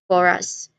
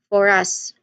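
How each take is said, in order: The two takes are said the same way.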